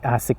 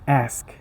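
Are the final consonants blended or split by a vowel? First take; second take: split; blended. First: An extra vowel splits the final consonants. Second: The final consonants are said together without vowel. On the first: The speaker calls it wrong. "You cannot say ask" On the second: The speaker calls it right. "No, it's ask"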